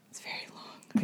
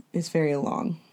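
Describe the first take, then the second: First: Whispered aside, very soft; whispering. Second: Said in the usual way. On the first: Shown as a demonstration. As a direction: breathe it as a secret aside. Repeats the complaint whispered.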